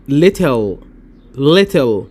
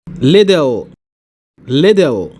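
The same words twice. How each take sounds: First: Little with a crisp t, British. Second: Little with a flapped t, American. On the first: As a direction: say little with a clear t, British accent. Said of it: "والتانية بالبريطاني". (little بالبريطاني) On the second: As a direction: say little like liddle, American accent. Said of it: "الأولى بالأمريكي". (little بالأمريكي) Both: Shown as a demonstration.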